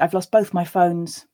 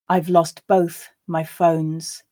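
First: The sentence is said at a natural pace. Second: The sentence is said slowly. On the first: "and then twice at a more natural pace" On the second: "I'll read it slowly the first time for you to grasp the words"

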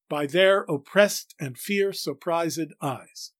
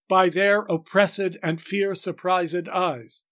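First: The first -ed is silent, the second is voiced. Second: An extra unstressed syllable sits mid-line. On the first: The speaker calls it right. "If we elide the first ED, that is, don't pronounce it as a syllable, and pronounce the second as a syllable, we get it right" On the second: The speaker calls it wrong. "which puts an annoying extra unstressed syllable in the middle of the line"

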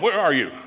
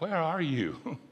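First: It is said in a harsh, accusing tone. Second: It is said in a warm, yearning tone. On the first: The caller is accusing the person. The speaker calls it wrong. "it's not like" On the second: The caller wants to be with the person. The speaker calls it right. "not in a condemning way, but in a calling, a longing way"

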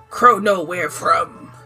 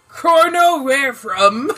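First: It sounds mad and serious. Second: It sounds light and not angry.

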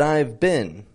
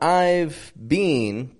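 First: The vowels are reduced and quick. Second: The vowels are full and unreduced. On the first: The speaker calls it right. "We reduce some of these vowels in this sentence" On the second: The speaker calls it wrong. "So not I've been"

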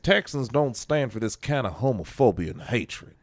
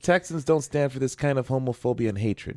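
First: It is said in a put-on Texas accent. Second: It is said in the speaker's normal voice. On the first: "That was a bad Texas accent" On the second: "He probably sounds like me"

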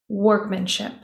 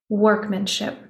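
The two takes are said the same way.

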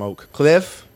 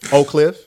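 First: The name is pronounced carefully and clearly. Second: The name is pronounced in a relaxed way. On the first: "that's how I say it to enunciate" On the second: "but Oak Cliff"

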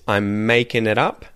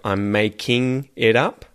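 First: The ending is reduced to an n sound. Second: The ending is a full ing sound. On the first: "an N sound instead of an ing sound" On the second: "instead of"

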